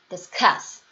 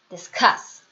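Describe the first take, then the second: No difference in how they are said.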